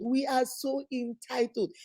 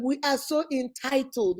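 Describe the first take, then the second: First: Softer and slower, shaking her head; quieter, slower repeat. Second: Said in the usual way. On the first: Real, not acted. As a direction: let it sink in, quietly.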